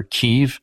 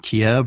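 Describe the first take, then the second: First: Kyiv said the Ukrainian way, close to "Keev"; Ukrainian pronunciation. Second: Said in the usual way. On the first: Shown as a demonstration. Lecturer showing how Ukrainians name their capital, Ukrainian pronunciation. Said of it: "the Ukrainians pronounce it Kyiv". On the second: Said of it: "Kiev or Kyiv, the Ukrainians pronounce it".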